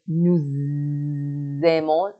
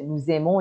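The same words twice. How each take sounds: First: Nous aimons with a long buzzing z linking the words; liaison shown. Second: Said in the usual way. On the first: Shown as a demonstration. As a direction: stretch the z between nous and aimons, slowly. (nous aimons با لیزون، صدای «ز» کشیده)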